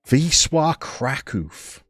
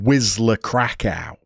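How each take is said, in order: First: The name is said with Polish-style sounds. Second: The name is read with plain English sounds. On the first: The speaker calls it right. "Give it a go" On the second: The speaker calls it wrong. "pronounce it frenetically and call them"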